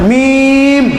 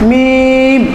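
The two takes are said the same way.

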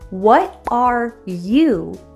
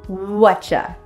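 First: Each word is said fully and separately. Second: The words blend into one short form. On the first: "What are you is reduced to whatcha" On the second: "reduced to whatcha"

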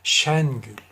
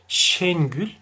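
First: The E vowel is pronounced open. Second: The E vowel is pronounced closed. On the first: The speaker calls it right. "açık telaffuz edilir" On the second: The speaker calls it wrong. "Şengül değildir bakınız"

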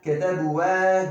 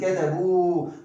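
First: An extra syllable is sounded after the final u. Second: The word ends on a lengthened u sound. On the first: The speaker calls it wrong. "ketebu ve değil" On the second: The speaker calls it right. "Burada uzatma var ama vav uzatması"

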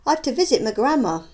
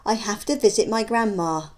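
First: The words are run together and reduced. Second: Each word is said separately and clearly. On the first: "how they might sound to the listener" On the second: "you can see the words being spoken"

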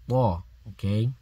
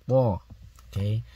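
The two takes are said the same way.

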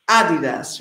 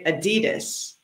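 First: It is said the London way. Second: It is said the Los Angeles way.

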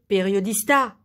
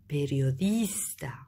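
First: The stress is not on the second-to-last syllable. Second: The stress is on the second-to-last syllable. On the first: The speaker calls it wrong. "On ne peut pas dire periodista" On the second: The speaker calls it right. "on dit periodista"

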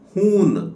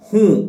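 First: The word ends with a full n sound. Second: The word ends with a nasalized vowel. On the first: The speaker calls it wrong. "ನೀವಿದನ್ನು ಹೂನ್ ಅಂತ ಓದಬಾರದು" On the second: The speaker calls it right. "ಇದನ್ನು ಮೂಗಿನ ಸಹಾಯದಿಂದ ಉಚ್ಚಾರ ಮಾಡಬೇಕು"

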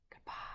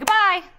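First: It is said quietly. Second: It is said loudly.

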